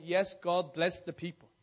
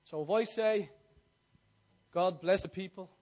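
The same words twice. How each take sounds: First: Affirming reply. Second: Said in the usual way. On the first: Shown as a demonstration. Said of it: "you say". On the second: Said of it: "say with attitude".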